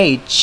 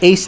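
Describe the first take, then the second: First: "এইচ" ending in a clear ch; correct H pronunciation. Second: "এইচ" ending in a plain s; wrong H pronunciation. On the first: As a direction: finish "এইচ" on a crisp ch release. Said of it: "এটা হবে কি?". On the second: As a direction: say "এইচ" loosely, like "eis". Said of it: "কিন্তু এটা এইচ না". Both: Shown as a demonstration.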